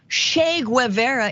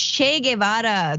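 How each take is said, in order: First: The name is said in an anglicized way. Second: The name is said in a Spanish-style way. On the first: The speaker calls it wrong. "This is not" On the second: The speaker calls it right. "just pronounce it correctly"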